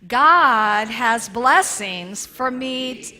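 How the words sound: It is said with strong passion.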